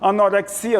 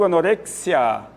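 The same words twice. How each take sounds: First: The stress is not on the 're' syllable. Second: The stress is on the 're' syllable. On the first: This is the Portuguese pronunciation. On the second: This is the Spanish pronunciation.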